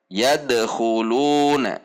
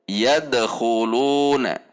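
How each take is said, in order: The two takes are said the same way.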